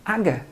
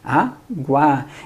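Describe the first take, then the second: First: The word has no w sound after g. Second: The word has a w sound after g. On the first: The speaker calls it wrong. "se eu não pronunciasse aquele U" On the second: The speaker calls it right. "a gente fala o quê? Água"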